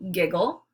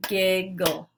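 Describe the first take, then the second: First: Said in the usual way. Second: "Giggle" split into gig - gle, each beat punched; syllables clapped out. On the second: Shown as a demonstration. Teacher models clapping syllables for the class, "Giggle" beat by beat. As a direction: clap out "Giggle" one syllable at a time. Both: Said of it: "then clap out the syllables".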